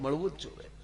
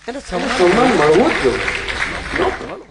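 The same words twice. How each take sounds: First: Much softer, મળવું જ જોઈએ said gently with a rise; soft restatement. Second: Much louder and very slow, rising on મળવું; emphatic proclamation. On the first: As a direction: quietly repeat મળવું જ જોઈએ as a firm afterthought. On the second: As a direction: drive home મળવું જ જોઈએ with full force. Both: Real, not acted. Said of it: "સાત વાર કહું".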